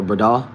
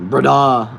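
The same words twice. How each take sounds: First: Said in the usual way. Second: BRADA called out loud and higher; emphatic repeat. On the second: Real, not acted. Streamer savouring a viewer's slang word, emphatic repeat. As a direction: belt out "Brada" with a drawn-out last vowel.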